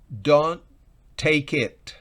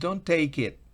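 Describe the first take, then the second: First: It is said in a firm, commanding tone. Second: It is said in a begging, pleading tone. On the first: The speaker is ordering the listener not to take it. "estoy dando una orden" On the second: The speaker is begging the listener not to take it. "estoy como rogando"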